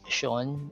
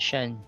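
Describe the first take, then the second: First: The ending has a full, open vowel. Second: The ending has a reduced schwa vowel. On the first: The speaker calls it wrong. "It's not Sean, like this" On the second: The speaker calls it right. "it's a schwa sound"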